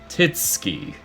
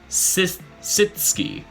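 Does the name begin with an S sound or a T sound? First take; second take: T sound; S sound. First: The name begins with a T sound. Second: The name begins with an S sound. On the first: The speaker calls it wrong. "he pronounced it as" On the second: The speaker calls it right. "you don't pronounce the T"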